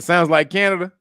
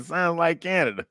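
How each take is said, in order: First: Laughing. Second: Said in the usual way. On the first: Retold or imitated. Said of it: "he said". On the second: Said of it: "He said".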